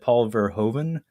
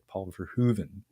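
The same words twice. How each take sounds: First: The name is said with an English pronunciation. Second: The name is said with a Dutch pronunciation. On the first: The speaker calls it wrong. "I had said Paul Verhoeven my entire life" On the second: The speaker calls it right. "is how I was told to say that one"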